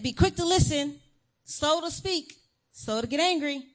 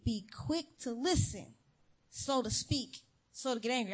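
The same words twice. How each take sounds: First: Higher and louder, pressing the verse; teacher repeating the verse to chattering kids; insistent repeat. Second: Preacher calmly reciting the verse to herself; calm reminder. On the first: Retold or imitated. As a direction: drill the verse at them with rising impatience. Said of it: "I said". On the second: Shown as a demonstration. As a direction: say it to yourself, settled now. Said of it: "Let them talk".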